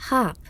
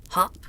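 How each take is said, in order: First: Puzzled little echo; puzzled, astonished. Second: Grasshopper's hop. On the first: A narrator's reading. Fawn watching the grasshopper vanish, puzzled. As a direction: repeat the word in mild astonishment. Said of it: "rather puzzled and astonished". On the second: Acted. Grasshopper leaps away.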